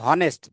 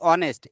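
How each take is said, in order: First: The word begins with an h sound. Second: The word begins with a vowel sound. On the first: The speaker calls it wrong. "বলছি না যে হনেস্ট" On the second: The speaker calls it right. "আমরা বলছি অনেস্ট, এইচ এর উচ্চারণ কিন্তু নাই"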